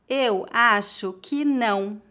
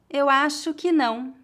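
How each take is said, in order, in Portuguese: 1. A frase é dita devagar e com cuidado. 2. A frase é dita em ritmo natural. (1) "Uma vez mais devagar" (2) "outra vez mais naturalmente"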